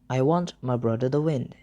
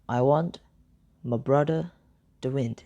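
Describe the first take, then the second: First: The sentence is said at normal speed. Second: The sentence is said slowly.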